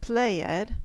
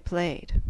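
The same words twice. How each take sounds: First: The ending is pronounced as an extra syllable. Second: The ending is pronounced as just a D sound. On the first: The speaker calls it wrong. "We don't pronounce it as an extra syllable. For instance, we do not say played" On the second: The speaker calls it right. "we say played"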